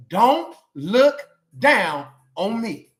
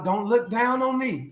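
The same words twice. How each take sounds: First: "Don't look down on me" said slowly, each word drawn out and pressed a bit louder; slow, emphatic declaration. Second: Said in the usual way. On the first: Shown as a demonstration. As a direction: spell out "Don't look down on me" word by word for the church to repeat. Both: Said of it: "That's what you should be saying".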